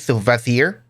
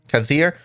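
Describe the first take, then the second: First: The name begins with a V sound. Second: The name begins with a K sound. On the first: "They just dropped the K" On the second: "I have no idea if I'm actually pronouncing that right"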